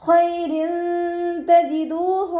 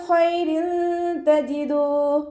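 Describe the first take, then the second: Both takes have the same delivery.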